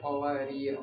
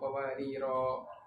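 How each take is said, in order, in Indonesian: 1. Kata itu berakhir pada konsonan terakhir, tidak ada vokal. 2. Kata itu berakhir dengan vokal terakhir yang dipanjangkan. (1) "kita bacanya qawarir" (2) "bukan qawariro"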